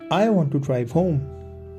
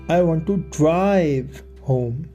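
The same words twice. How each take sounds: First: No word is given special stress. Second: The word "drive" is stressed. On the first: A plain statement of wanting to go home. "this is a neutral speech" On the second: The speaker wants to take the car, not a taxi. "I want to take the car, not get a taxi"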